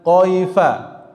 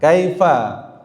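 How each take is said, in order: First: It begins with a deep q sound. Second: It begins with a front k sound. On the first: The speaker calls it wrong. "bukan qaifa" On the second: The speaker calls it right. "kaifa bukan qaifa"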